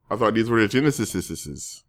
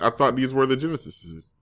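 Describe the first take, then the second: First: GENESIS with its ending repeated, "genesisisises"; soft, stuttering plural tail on GENESIS; over-pluralized ending. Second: GENESIS with one extra plural ending; soft, doubled ending on GENESIS. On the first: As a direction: quietly pile extra "-sis" endings onto GENESIS. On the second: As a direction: end GENESIS as "genesises", quietly. Jokes on the plural name. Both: Acted.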